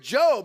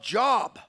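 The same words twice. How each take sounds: First: Job is said with a long o sound. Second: Job is said like the everyday word job. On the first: The speaker calls it right. "it's actually the book of Job" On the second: The speaker calls it wrong. "No, you don't say it that way"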